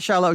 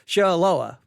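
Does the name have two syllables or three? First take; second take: two; three. First: The name is said with two syllables. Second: The name is said with three syllables. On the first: The speaker calls it wrong. "it's not Shiloh" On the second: The speaker calls it right. "I think is how he, he, he pronounced it"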